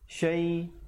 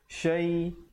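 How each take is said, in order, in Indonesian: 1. Bunyi sh digandakan dan ditahan. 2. Bunyi sh digandakan dan ditahan.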